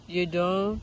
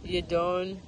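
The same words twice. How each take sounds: The two takes are said the same way.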